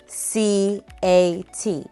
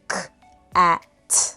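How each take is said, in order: First: Each letter is spoken by its alphabet name. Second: Each letter is spoken as its speech sound. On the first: The speaker calls it wrong. "The word does not say C A T" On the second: The speaker calls it right. "It says K A T"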